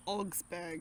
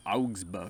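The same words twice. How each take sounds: First: "Augsburg" as /ɔɡzpə˞ɡ/, aw vowel; her way of saying it. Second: "Augsburg" as /oʊɡzbə˞ɡ/, oh vowel; his way of saying it. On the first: Wife gives her pronunciation of "Augsburg". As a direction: say "Augsburg" with open aw, zb blended. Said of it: "I say Augsburg". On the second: Husband offers his version of "Augsburg". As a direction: say "Augsburg" starting with oh. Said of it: "I like to say Augsburg". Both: Shown as a demonstration.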